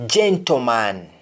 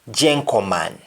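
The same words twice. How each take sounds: First: Said in the usual way. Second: "gentleman" said as jenkoman, with a k for the t; Jamaican t to k. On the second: Shown as a demonstration. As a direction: swap the t for a k in "gentleman". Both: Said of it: "just replace T with K".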